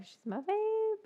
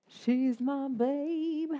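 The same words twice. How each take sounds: First: High doting pet voice. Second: Very slow, stretched-out and fond; long slow adoring croon; slow doting coo. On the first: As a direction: chirp it up high at the dog. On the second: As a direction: draw every word out lovingly. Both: Real, not acted. Cooing over her dog.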